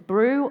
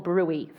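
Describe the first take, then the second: First: The word is said as one syllable. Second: The word is said as two syllables. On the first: "We're going to have two options" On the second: "We're going to have two options"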